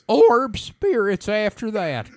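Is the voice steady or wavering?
wavering. The voice wavers like an old-timey prospector.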